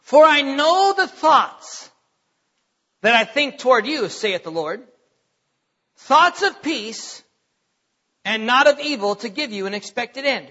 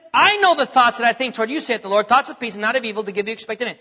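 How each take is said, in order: First: Slow, measured and solemn, every phrase weighed; slow scripture reading. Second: Fast, running the familiar verse together; quick recap of the verse. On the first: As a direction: read the verse slowly as if for the first time. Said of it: "Listen to this". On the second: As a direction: rattle it off because everyone knows it. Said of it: "Now listen to what he says here". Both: Shown as a demonstration.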